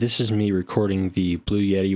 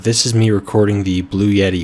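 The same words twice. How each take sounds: First: Filtered more heavily, with the least room noise. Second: Unfiltered, with high gain and much room noise. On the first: "with even better filters" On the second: "without filters"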